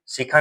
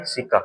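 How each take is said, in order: First: सिका said as "sikha", with a puff of air after the k; mispronounced term. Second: सिका said as "see-ka", with a plain unaspirated k; corrected pronunciation. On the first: Teacher warns students off the wrong name, mispronounced term. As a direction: say सिका with an aspirated kh, as "see-kha". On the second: Teacher gives students the right name, corrected pronunciation. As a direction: say सिका with a clean k and no puff of air. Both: Shown as a demonstration. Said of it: "सिका नहीं, सिका".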